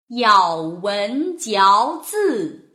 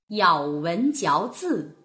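First: It is read slowly with very clear articulation. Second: It is read faster with expressive feeling.

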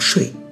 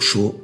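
First: The syllable is pronounced shui. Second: The syllable is pronounced shuo. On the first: This is the reading many people use. "很多人可能会读睡" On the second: This is the current standard reading. "但现在其实读说"

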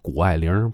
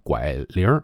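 First: All three syllables are said in full. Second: The first two syllables merge into one.

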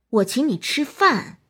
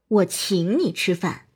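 First: The word 饭 carries the stress. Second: The word 请 carries the stress. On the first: "突出饭" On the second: "突出请"

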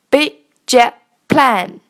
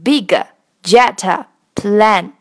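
First: The g and t sounds are not released. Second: The g and t sounds are fully released. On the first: The speaker calls it right. "你会发现我把G 和T 都画成了红色，因为它们都是属于失爆现象" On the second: The speaker calls it wrong. "而不念成big jet plane"

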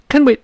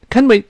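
Both takes have the same delivery.

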